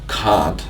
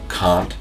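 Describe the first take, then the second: First: It is said in a British or Australian accent. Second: It is said in an American or Canadian accent. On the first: "British or Australian English" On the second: "in American or Canadian English"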